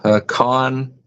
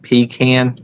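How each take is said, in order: First: Pecan said puh-KAHN, second syllable held; puh-KAHN pronunciation. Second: Pecan said PEE-kan, as in can; long ee, flat-A KAN in pecan; PEE-can pronunciation. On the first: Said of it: "people say pecan and they say pecan". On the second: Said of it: "not pecan". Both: Shown as a demonstration.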